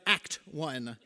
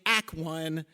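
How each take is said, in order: First: The final T of the first word is pronounced. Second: The final T of the first word is dropped. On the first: The speaker calls it right. "there is a T at the end of that first word" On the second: The speaker calls it wrong. "stop saying Act One"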